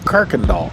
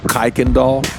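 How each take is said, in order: First: The first syllable rhymes with work. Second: The first syllable rhymes with bike. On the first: The speaker is a local. The speaker calls it right. "it's Kirkendall" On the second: The speaker is not from the area. The speaker calls it wrong. "A lot of people pronounce it Kuykendall"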